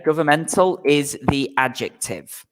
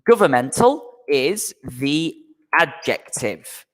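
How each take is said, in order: First: Said in the usual way. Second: Slow, careful teacher model of governmental is the adjective; slow model sentence. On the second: Shown as a demonstration. Teacher to online class, modelling the sentence slowly. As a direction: say governmental is the adjective slowly so learners can follow.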